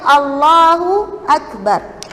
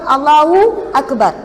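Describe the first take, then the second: First: No extra w sound follows Allahu. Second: An extra w sound follows Allahu. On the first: The speaker calls it right. "Padahalnya yang sepatutnya" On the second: The speaker calls it wrong. "Ada juga wow bagi atas, ada juga wow sukun"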